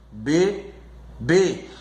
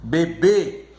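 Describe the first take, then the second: First: "bebê" split by a pause, be... bê; slowly divide "bebê" in two; syllable by syllable. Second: "bebê" with a firm final BÊ; be-BÊ, ending strong; stress on last syllable. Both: Shown as a demonstration. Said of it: "a última sílaba é a mais forte".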